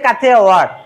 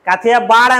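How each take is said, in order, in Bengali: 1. শেষ অংশটি w ধ্বনি দিয়ে শুরু হয়। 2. শেষ অংশটি b ধ্বনি দিয়ে শুরু হয়। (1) "অ্যাকচুয়াল উচ্চারণ" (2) "আমরা বলি"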